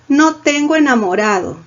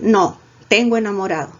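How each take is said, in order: First: The words run on without a pause after no. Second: There is a pause right after no. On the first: The speaker has no boyfriend. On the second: The speaker does have a boyfriend. "Como otras dirían"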